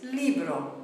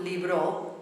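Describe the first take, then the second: First: "libro" with the beat on the i, falling away; correct first-syllable stress. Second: "libro" with the beat wrongly on the final o; wrong final stress. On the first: Teacher correcting the rhythm, first-syllable stress. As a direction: slowly lean on the start of "libro". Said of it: "beat on the E". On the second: Teacher showing what it is not, end stress. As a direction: push the stress onto the end of "libro", slowly. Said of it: "It's not libro". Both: Shown as a demonstration.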